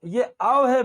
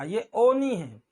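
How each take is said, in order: First: आओ slow and wide, "aa" into "o"; slow, emphatic "aa-o" for आओ; blended "au" vowel. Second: ओ as one pure round "o"; single "o" vowel. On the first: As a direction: stretch आओ as one gliding vowel. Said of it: "आ के बाद ओ बोलना है". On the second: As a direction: slowly say ओ with no "aa" before it. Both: Shown as a demonstration.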